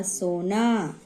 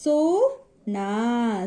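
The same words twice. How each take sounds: First: Said in the usual way. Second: सोना very slow, split as so, naa; sounding out. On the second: Shown as a demonstration. Teacher demonstrating the o sign, very slow syllables. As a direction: hold each long vowel of सोना. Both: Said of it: "इस तरीके से हमें मात्राओं का उच्चारण करना है".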